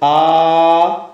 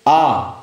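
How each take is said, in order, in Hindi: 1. स्वर को बहुत ज़्यादा खींचकर बोला जाता है। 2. स्वर को लगभग दुगुनी देर तक बोला जाता है। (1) "इसी को दीर्घ तक बोलते हैं आ, ये आपका प्लुत स्वर हो जाता है" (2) "आ दीर्घ हो गया"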